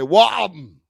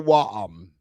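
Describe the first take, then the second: First: The word is said with a lot of force. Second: The word is said weakly, with little force. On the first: The speaker calls it right. "A little bit more oomph on it" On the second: The speaker calls it wrong. "Don't say warm"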